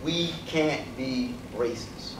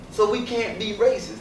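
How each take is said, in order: First: "We can't be racist" spaced out slow and softer; slow emphasis. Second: "racist" hit, higher pitched; emphatic point. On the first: Lecturer repeats his main point to the audience, slow and soft. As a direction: let "can't" sink in, slowly and quietly. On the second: Lecturer stresses his main point to the audience, pitched up. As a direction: drive home "racist" firmly. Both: Real, not acted. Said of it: "That's what I'm trying to emphasize".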